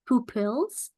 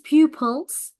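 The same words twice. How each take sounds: First: The first syllable does not sound like 'pew'. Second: The first syllable sounds like 'pew'. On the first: The speaker calls it wrong. "not pupils" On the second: The speaker calls it right. "It is pew and pulse, pupils"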